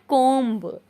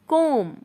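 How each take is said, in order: First: The word ends with an audible b sound. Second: The word ends on m with no b sound. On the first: The speaker calls it wrong. "Not कोम्ब" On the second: The speaker calls it right. "बस आप बोले कोम"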